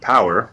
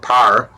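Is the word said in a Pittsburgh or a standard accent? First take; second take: standard; Pittsburgh. First: It is said in a standard accent. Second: It is said in a Pittsburgh accent.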